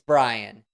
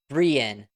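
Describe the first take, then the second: First: The name sounds like Ryan with a B. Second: The name does not sound like Ryan with B. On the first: This is the name's real pronunciation. The speaker calls it right. "Just think of Ryan with a B" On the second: This is how others mispronounced the name. The speaker calls it wrong. "which is how they pronounced my name at the graduation"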